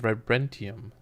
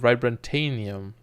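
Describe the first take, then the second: First: No extra syllable is inserted mid-word. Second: An extra 'tan' syllable is inserted mid-word. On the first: The speaker calls it right. "It's actually vibranium" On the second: The speaker calls it wrong. "I keep pronouncing vibranium wrong. I said vibrantanium"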